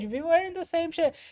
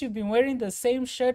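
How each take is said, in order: First: The tone is sharp and accusing. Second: The tone is gentle and caring. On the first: The listener feels blamed. The speaker calls it wrong. "Immediately they're on the defensive" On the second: The listener feels cared for. The speaker calls it right. "with care, with compassion"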